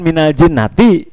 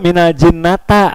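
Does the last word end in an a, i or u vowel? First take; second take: i; a. First: The last word ends with an i vowel. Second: The last word ends with an a vowel. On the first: The speaker calls it right. "harusnya kan minal jinnati" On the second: The speaker calls it wrong. "ini keluar minal jinnata"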